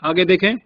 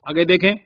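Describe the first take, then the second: No difference in how they are said.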